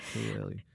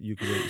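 First: The word begins with an 'oo' sound. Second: The word begins with a 'you' sound. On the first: The speaker calls it right. "You're saying that the first U is an U?" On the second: The speaker calls it wrong. "everybody pronounces it ukulele, so everybody's doing it wrong"

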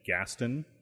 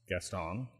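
First: The name is said in an anglicized, non-French way. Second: The name is said in the French way. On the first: This is how the locals say it. The speaker calls it right. "which apparently is pronounced Lake Gaston" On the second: This is how the speaker wrongly said it before. The speaker calls it wrong. "spelled like the guy from Beauty and the Beast"

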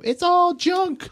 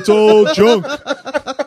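First: The voice is light and childlike. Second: The voice is deep and bassy. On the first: A small child says it cutely. "it was so cute" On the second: An older kid says it and scares people. "he's got all this bass in his voice"

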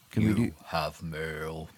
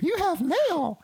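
First: It is said in the speaker's normal voice. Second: It is said in a put-on character voice.

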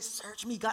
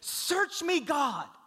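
First: It is said timidly and sheepishly. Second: It is said boldly and confidently.

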